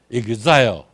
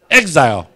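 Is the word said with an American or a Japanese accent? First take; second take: Japanese; American. First: It is said with a Japanese accent. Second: It is said with an American English accent. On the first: The speaker calls it wrong. "那日本发音做Exile" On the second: The speaker calls it right. "这是正确的美国发音啦"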